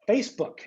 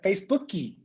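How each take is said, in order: First: The word ends sharply on the k sound. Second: An extra ee vowel is added after the k.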